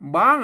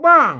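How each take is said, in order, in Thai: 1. พยางค์นี้ออกเสียงด้วยเสียงสูง 2. พยางค์นี้ออกเสียงด้วยเสียงตก (1) "บ้างอ่ะเสียงตี" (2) "ไม่โทรบ้าง"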